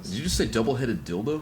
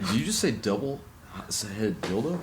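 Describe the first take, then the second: First: It is said smoothly without any break. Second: It is said with a stammer and break.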